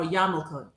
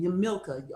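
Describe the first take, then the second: First: "Yamilka" as YAH-mul-kuh, first syllable open; alternative pronunciation of Yamilka. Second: "Yamilka" stressed on the middle, yuh-MIL-kuh; first pronunciation of Yamilka. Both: Shown as a demonstration. Offers two ways to say name.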